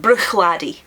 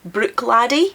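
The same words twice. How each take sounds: First: The first syllable ends in a throaty ch sound. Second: The first syllable ends in a hard k sound. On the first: The speaker calls it right. "it's Bruch" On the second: The speaker calls it wrong. "a lot of pronunciation guides will say Brook"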